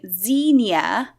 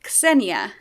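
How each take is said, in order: First: The name begins with a Z sound. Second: The name does not begin with a Z sound. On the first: The speaker calls it wrong. "they're pronouncing the X as a Z" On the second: The speaker calls it right. "you're supposed to do it like it's Xenia"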